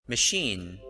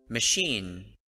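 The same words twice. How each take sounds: The two takes are said the same way.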